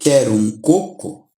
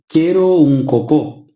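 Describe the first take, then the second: First: The last word is stressed on its first syllable. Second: The last word is stressed on its second syllable.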